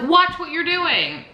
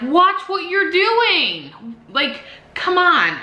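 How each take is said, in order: First: High, slow scolding; angry warning. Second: High, very slow, stretched scolding; angry warning. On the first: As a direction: warn her sharply, stretching each word. Warning the driver. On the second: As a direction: drag it out, furious and disbelieving. Retelling yelling at the driver. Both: Retold or imitated.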